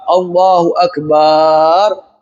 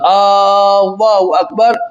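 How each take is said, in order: First: The vowel in the bar syllable is drawn out. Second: The opening vowel of Allahu is drawn out. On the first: The word becomes one meaning drum. "bila dia panjangkan huruf ba" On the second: It asks whether God is the greatest. "bila dipanjangkan huruf alif di situ"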